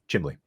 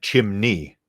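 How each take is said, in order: First: The word has an L sound before the end. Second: The word has an N sound before the end. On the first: The speaker calls it wrong. "I'd call it the chimley" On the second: The speaker calls it right. "That's how you say it"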